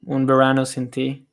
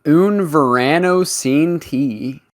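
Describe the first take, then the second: First: Un Verano Sin Ti in natural Spanish; Un Verano Sin Ti with native Spanish sounds; Spanish pronunciation. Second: Un Verano Sin Ti said slowly with American vowels; Un Verano Sin Ti with English r and vowels; American accent Spanish. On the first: Real, not acted. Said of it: "the Spanish accent is very". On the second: Shown as a demonstration. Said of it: "That's how Northwest would pronounce it".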